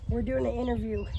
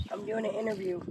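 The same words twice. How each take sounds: First: Higher, louder call across to the neighbor; calling out to the neighbor Miss Nancy. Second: Said in the usual way. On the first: Real, not acted. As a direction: raise your voice so the neighbor hears.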